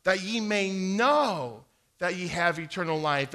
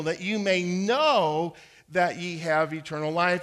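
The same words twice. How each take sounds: First: Said in the usual way. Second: "know" given the main weight, a touch louder; stress on know. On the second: Shown as a demonstration. Reading the verse aloud with a hesitant listener, stress on "know". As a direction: land firmly on "know" as you read the verse. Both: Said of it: "I would stress that word".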